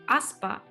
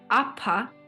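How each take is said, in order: First: A clear s sound comes before the p. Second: The s becomes a puff of air after p.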